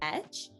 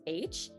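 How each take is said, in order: First: The letter name begins with an 'eh' vowel. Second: The letter name begins with an 'ay' vowel. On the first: The speaker calls it wrong. "we are taught that it's pronounced as etch" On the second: The speaker calls it right. "actually pronounced as H"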